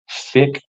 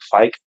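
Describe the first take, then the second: First: The name has a short vowel, like kick. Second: The name has a long vowel, like bike. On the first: "this young kid called Dominic Fick" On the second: "I almost want to say it's Fike, but it sounds wrong to pronounce it that way"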